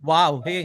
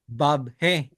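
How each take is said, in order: First: The first word begins with a W sound. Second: The first word begins with a V sound. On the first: The speaker calls it wrong. "Hindi wow he" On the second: The speaker calls it right. "V as in victory"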